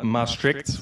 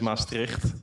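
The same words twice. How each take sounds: First: It is said with an English accent. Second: It is said with a Dutch accent. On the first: This is how the video said it. The speaker calls it wrong. "it's an ex- accent issue" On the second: This is how it should be said. The speaker calls it right. "what they wanted to say is"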